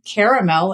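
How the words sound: It is said the way Southern speakers say it. "caramel in the South"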